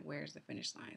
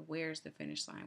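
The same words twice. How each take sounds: First: Low, soft, breathless whisper; whispered repeat. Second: Said in the usual way. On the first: Retold or imitated. Runner on the last stretch whispers to herself, exhausted. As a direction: whisper it to yourself, spent.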